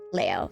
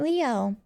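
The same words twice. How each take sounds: First: The name is said with Japanese-style pronunciation. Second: The name is said with English-style pronunciation. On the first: "in Japan it would be pronounced Leo" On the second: "why aren't you pronouncing it Leo?"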